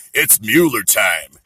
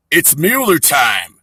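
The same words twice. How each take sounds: First: Lower, slow "it's Mueller time" landing the punchline; beer-ad catchphrase. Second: Slow, drawn-out "It's Mueller time" like a beer commercial; beer-ad catchphrase. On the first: Comedian landing the punchline on Trump, low and slow. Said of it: "Like Miller time". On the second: Comic quoting a beer slogan at Trump, slow and drawn-out. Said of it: "Like Miller time, right?". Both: Shown as a demonstration.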